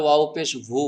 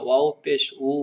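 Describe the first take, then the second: First: ওয়াও পেশ ভু with a v sound; ভু said with lip and teeth; wrong pronunciation. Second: ওয়াও পেশ উ with a round-lipped w; উ said with rounded lips, no v; correct pronunciation. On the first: (ভুল উচ্চারণে ভু) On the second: (শুদ্ধ উচ্চারণে উ) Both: Shown as a demonstration. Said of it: "ভু বললে হবে না".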